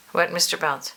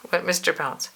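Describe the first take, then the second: No difference in how they are said.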